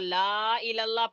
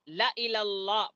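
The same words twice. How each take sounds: First: The vowel after the 'l' is drawn out long. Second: The vowel after the 'l' is kept short. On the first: The speaker calls it wrong. "पढ़े तो गलत" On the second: The speaker calls it right. "पढ़े तो सही, लाम को खींचे बगैर"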